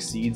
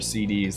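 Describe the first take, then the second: First: It is said as one ordinary word. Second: It is said as separate spelled-out letters. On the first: The speaker calls it right. "it's definitely seeds" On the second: The speaker calls it wrong. "despite the capital D looking kind of confusing"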